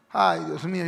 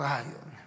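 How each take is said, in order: First: Weary sigh on "Ay, Dios mío"; exasperated sigh. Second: Much softer, sighed "Ay, Dios mío"; softer exasperated sigh. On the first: Real, not acted. Pastor sighing over stubborn believers, exasperated. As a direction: sigh it out, fed up. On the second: Shown as a demonstration. Pastor reacting to the stubborn congregant, faint weary sigh. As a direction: breathe the "Ay" out, barely voiced, weary. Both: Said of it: "yo digo".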